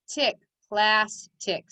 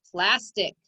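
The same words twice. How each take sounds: First: Slow "tick", then "plastic" split into plas and tic; syllable by syllable. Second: "plastic" blended quickly into one joined word; said fast. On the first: Teacher decoding for pupils, syllable by syllable. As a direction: say "plastic" as two separate syllables with a gap. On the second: Teacher showing pupils the whole word, said fast. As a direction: run both syllables of "plastic" together without a gap. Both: Shown as a demonstration. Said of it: "Say it fast".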